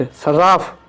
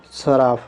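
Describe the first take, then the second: First: सराफ with a doubled r, "sar-raaf"; incorrect form. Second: Said in the usual way. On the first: Shown as a demonstration. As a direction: lean on a long r in सराफ. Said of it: "इधर हमारा अशुद्ध". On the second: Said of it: "इधर शुद्ध रूप है".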